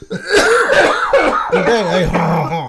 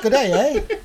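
First: Very loud, hammed-up French-Canadian accent. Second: Mock Canadian, raised and loud, with a laugh; Canadian accent. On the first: Host redoes his Canadian with the forgotten French accent, hammed-up French. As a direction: redo it as an exaggerated French Canadian. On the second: Host answers what to say about Canadians, mock Canadian accent. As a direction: put on a jokey Canadian accent. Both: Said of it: "I forgot my French accent".

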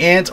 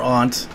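First: "aunt" said like "ant"; short a in "aunt", as in "cat"; first pronunciation. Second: "aunt" said as "ahnt"; broad ah vowel in "aunt"; second pronunciation. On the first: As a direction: say "aunt" to rhyme with "pant". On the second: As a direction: say "aunt" with an open ah, as in "father". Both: Shown as a demonstration. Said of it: "it could be aunt or aunt".

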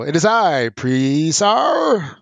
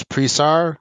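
First: Grand, high villain announcing himself; loud drawn-out proclamation, stretching the name Presar; hammed-up grand entrance, name held long and high; Chaos. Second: Said in the usual way. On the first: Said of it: "like Chaos". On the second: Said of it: "or I should go".

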